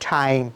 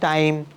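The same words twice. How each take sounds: First: The first T is aspirated, like Bengali ঠ. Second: The first T is plain, without a puff of air. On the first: The speaker calls it right. "টির উচ্চারণ করবো হচ্ছে গিয়ে ঠয়ের মতো" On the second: The speaker calls it wrong. "এইভাবে বলি তাহলে কিন্তু ... একেবারে শুনতে খারাপ লাগে"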